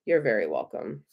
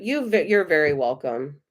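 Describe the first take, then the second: First: Soft low repeat. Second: Said in the usual way. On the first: Real, not acted. Tarot reader repeats her thanks to a viewer, low and soft. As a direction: drop lower and softer on the repeat.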